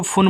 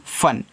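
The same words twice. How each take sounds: First: "फुन" with a short oo vowel; wrongly voiced U. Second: "फन" with a short uh vowel, silent U; correct short-a reading. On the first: Teacher warning children of a misreading, "फुन" with short oo. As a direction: sound the U, making "फुन" rhyme with foon, kept short. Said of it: "छोटा ऊ का मात्रा मत लगा देना". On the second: Teacher reading F-U-N for children, "फन" with short uh. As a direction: say "फन" as fuh-n, no oo. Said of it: "इसको फुन मत पढ़ना". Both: Shown as a demonstration.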